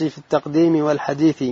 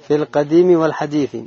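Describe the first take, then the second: First: التقديم read with an extra t after the article, "at-taqdim"; misread word. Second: Said in the usual way. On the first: Real, not acted. Student reading the text aloud to the teacher, misreading التقديم as "at-taqdim". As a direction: say "at-taqdim" in التقديم instead of "al-qadim". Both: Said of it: "ها؟".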